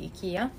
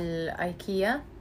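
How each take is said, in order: First: IKEA is said in the Swedish way. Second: IKEA is said in the usual Arabic way.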